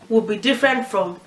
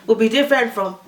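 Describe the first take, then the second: No difference in how they are said.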